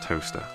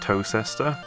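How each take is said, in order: First: It is said as two syllables, like toaster. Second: It is said as three syllables, tow-ses-ter. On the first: The speaker calls it right. "It's definitely just Toaster" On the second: The speaker calls it wrong. "It's not Tocester"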